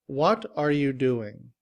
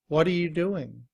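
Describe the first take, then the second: First: The word 'are' is said in full. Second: The word 'are' is reduced to 'uh'. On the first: "In citation form" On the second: "In reduced form, are is simply written as a schwa and sounds like uh"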